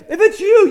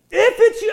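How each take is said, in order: First: Said in the usual way. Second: "If it's you" with a hint of doubt, stress on its; lightly hesitant "If it's you"; a touch of doubt. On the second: Shown as a demonstration. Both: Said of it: "there was a little bit of doubt there".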